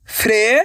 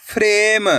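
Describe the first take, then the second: First: "फ्रेम" begun as a separate rising fre, the म held back; sounded out by letters. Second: Said in the usual way. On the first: Shown as a demonstration. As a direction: break "फ्रेम" into fre, pause, ma. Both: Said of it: "अक्षर का उच्चारण करके".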